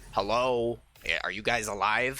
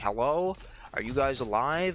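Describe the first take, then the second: First: It sounds hostile and aggressive. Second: It sounds curious and questioning.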